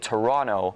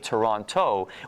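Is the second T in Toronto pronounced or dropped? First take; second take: dropped; pronounced. First: The second T is dropped. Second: The second T is clearly pronounced. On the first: This is how locals say it. The speaker calls it right. "we don't pronounce the second T" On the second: This is how outsiders say it. The speaker calls it wrong. "do not say Toronto"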